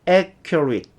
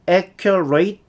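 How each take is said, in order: First: The ending is reduced, like 'it'. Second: The ending sounds like 'ate'. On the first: The speaker calls it right. "it 또는 at 요 정도로 발음이 돼요" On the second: The speaker calls it wrong. "이렇게 발음하지 않고요"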